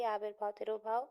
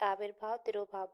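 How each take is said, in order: First: तिरोभाव stressed with a rising end; teacher repeats आविर्भाव, तिरोभाव to mark them important; emphatic repeat. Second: Said in the usual way. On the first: Shown as a demonstration. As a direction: lean on तिरोभाव and lift it at the end. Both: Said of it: "बहुत important है ये".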